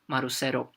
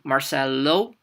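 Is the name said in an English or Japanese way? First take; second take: Japanese; English. First: It is said the Japanese way, with an R. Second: It is said the English way, with an L. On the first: "everything that is L becomes an R" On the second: "my name, for example"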